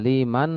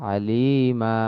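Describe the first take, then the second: First: The word ends with an n sound. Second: The word ends on a long a vowel. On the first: The speaker calls it wrong. "আলিমান হবে না" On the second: The speaker calls it right. "শুধু এক আলিফ টান হবে"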